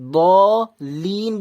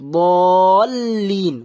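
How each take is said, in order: First: The L sound is single, not joined on. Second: The L sound is doubled and joined on. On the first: The speaker calls it wrong. "ব লিন বলবেন না" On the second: The speaker calls it right. "মানে লামটা যুক্ত করবেন"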